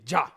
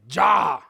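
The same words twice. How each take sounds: First: The vowel is short. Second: The vowel is long. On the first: It is the plain verb, not a command. The speaker calls it wrong. "I don't say ja" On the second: It is a command to eat. The speaker calls it right. "It sounds longer"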